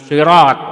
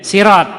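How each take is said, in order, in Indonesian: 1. Awalnya bunyi s tebal, emfatik. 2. Awalnya bunyi s ringan, biasa. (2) "menggunakan huruf sin menjadi sirat"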